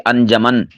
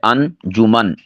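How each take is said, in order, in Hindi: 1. j को बिना u स्वर के बोला जाता है। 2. j को u स्वर के साथ बोला जाता है। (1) "बाज़ इसे अनजमन बोल देते हैं, ये गलत है" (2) "जीम के ऊपर पेश है"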